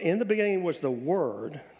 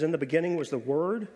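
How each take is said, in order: First: It is read more slowly. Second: It is read at a normal pace.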